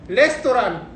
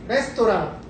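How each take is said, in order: Both takes have the same delivery.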